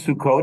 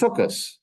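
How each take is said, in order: First: The word ends with a t sound. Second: The word ends with an s sound. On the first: "It wasn't Sukkot" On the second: "it was Sukkos"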